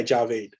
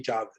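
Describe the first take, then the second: First: Javeed said the Anglo way, as "ja-VEED"; Javeed with a long ee ending; anglicised mispronunciation. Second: Javid said as his mother says it; mother's pronunciation. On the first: Retold or imitated. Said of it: "ninety percent of you would ... would say Javeed". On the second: Shown as a demonstration. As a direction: Javid in its home pronunciation, not anglicised. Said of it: "my mother calls me".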